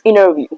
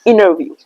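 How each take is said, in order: First: The T is dropped, leaving a double N sound. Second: The T is dropped, leaving a double N sound.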